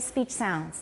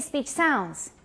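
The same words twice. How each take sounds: First: The stress falls on the first word. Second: The stress falls on the second word. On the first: The speaker calls it right. "it is a compound" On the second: The speaker calls it wrong. "we don't say"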